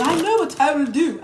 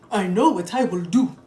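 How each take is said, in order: First: Higher put-on odd accent, "I know what I will do" lilting up; mock unplaced accent. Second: Lightly put-on odd accent, lower "I know what I will do"; mock unplaced accent. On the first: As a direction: parody them with a strange higher accent. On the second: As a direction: mimic silly women plotting in a strange accent. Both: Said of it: "I don't know what accent this bitch is in".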